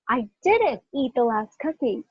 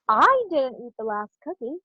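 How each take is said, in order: First: The word "didn't" carries the main stress. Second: The word "I" carries the main stress. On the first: I deny that I ate it. "What about the next one?" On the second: Someone else ate it, not me. "I'm going to emphasize each word"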